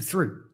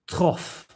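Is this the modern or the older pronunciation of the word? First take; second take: modern; older. First: The word is said in its modern pronunciation. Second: The word is said in its older pronunciation. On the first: This is how it is said today. "now we've changed it to through" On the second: This is how it sounded when first written down. "it was originally pronounced throth"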